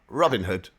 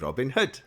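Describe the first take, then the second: First: The pitch does not go up across the name. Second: The pitch goes up across the name. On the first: The speaker calls it wrong. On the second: The speaker calls it right. "We go up"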